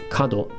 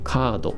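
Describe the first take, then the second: First: The first vowel is short. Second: The first vowel is held long. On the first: The speaker calls it wrong. "It's not kado" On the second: The speaker calls it right. "hold the tone marker in there"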